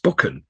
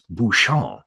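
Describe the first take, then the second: First: The first syllable sounds like 'buck'. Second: It is said in a French way, not 'buck'. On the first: "The first syllable is like buck" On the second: "because it's a French name, is Bouchon"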